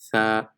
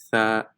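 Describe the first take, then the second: First: The tongue tip between the teeth gives a 'th' sound. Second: The tongue tip between the teeth gives a 'th' sound.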